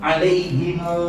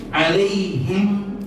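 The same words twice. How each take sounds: First: Alaihimu with the extra final u; alaihimu, closing on a clear u; long reading. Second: Alaihim said short, no final vowel; alaihim, ending on the m; short reading. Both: Shown as a demonstration. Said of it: "menjadi jamak".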